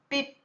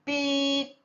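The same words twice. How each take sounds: First: The sound is cut off very quickly. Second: The sound is held for a long time.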